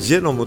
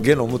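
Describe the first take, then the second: First: The word begins with a 'j' sound. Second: The word begins with a hard 'g' sound. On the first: This is the English pronunciation. "本当は英語ではジェノムって言うんでね" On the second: This is the Japanese katakana rendering. "ゲノムって最初に誰か、あの文部省の役人が訳した"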